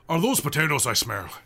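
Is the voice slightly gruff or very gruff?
very gruff. It is said in a much gruffer voice.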